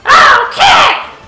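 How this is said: It is said in a Toad impression voice.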